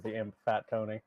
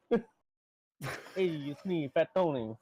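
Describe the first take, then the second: First: Said in the usual way. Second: Higher mobster voice introducing himself as "Fat Tony"; lightly voiced wiseguy imp, "Fat Tony" with a New York swagger.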